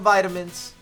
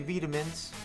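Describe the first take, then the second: First: It is said in a non-British pronunciation. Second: It is said in a British pronunciation.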